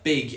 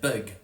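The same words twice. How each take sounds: First: The vowel is a clear, front 'ih' sound. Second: The vowel is a centralized 'uh' sound. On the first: "keep it as I in front of a G" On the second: "instead of"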